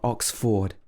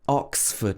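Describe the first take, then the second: First: The stress is on the second syllable. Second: The stress is on the first syllable. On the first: The speaker calls it wrong. "not Oxford" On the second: The speaker calls it right. "we stress the ox, so it should be Oxford"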